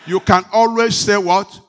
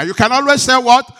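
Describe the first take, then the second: First: Calling for a loud answer; preacher's loud call to the congregation. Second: Higher and much louder call. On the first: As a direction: throw the question out loud to the crowd. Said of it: "Can I hear a big amen?". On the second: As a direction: push the question bigger. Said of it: "say it bigger". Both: Real, not acted.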